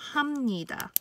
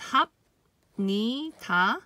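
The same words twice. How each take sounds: First: The consonant before n is assimilated. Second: The consonant before n is kept distinct. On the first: "when it's pronounced together it becomes 합니다" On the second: "on its own it's pronounced as 합니다"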